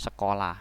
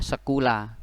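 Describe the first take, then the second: First: The middle syllable has an o vowel. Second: The middle syllable has a u vowel. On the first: This is how the word is actually read. "bacanya sekolah" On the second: This is how the word is spelled. "tulisannya sekolah"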